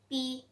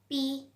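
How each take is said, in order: The two takes are said the same way.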